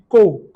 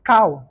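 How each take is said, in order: First: The vowel is a plain 'oh' sound. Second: The vowel glides like 'ow'. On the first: The speaker calls it wrong. "Souvent, les gens disent co" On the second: The speaker calls it right. "Mais la bonne prononciation, c'est cow"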